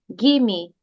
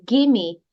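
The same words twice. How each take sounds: No difference in how they are said.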